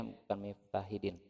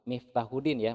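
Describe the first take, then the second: First: Miftahidin with an i in place of u; wrong name. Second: Miftahudin with a clear u; correct name. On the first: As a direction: say Miftahidin, the mistaken i. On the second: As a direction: say Miftahudin, u in the middle. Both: Shown as a demonstration.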